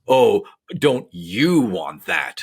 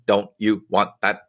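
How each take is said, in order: First: It is read with heavy emotional tone. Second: It is read flat, without added tone.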